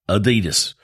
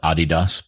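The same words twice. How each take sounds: First: It is pronounced the American Southeast way. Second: It is pronounced the European way.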